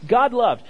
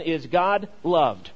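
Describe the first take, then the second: First: God loved punched out, louder; emphatic repeat of the key phrase; God loved repeated higher and louder. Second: God loved said slowly and deliberately, each word weighted; dictating slowly so they can write; slow emphatic. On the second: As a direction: spell it out slowly for note takers. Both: Shown as a demonstration. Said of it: "the first thing I want you to fill out".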